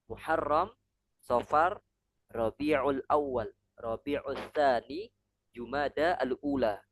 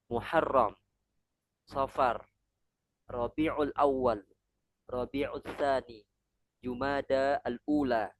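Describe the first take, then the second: Both takes have the same delivery.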